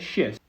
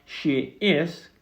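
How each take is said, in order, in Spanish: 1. Se dice como una sílaba contraída. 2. Se dice como dos palabras separadas. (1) "hacerlo un poquito más corto" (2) "en dos palabras separadas"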